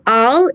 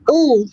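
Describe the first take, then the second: First: The vowel is open and unrounded. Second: The vowel is closed and rounded. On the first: The speaker calls it wrong. "is not" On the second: The speaker calls it right. "close your vowels"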